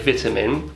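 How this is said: It is said with a British pronunciation. "We say vitamin"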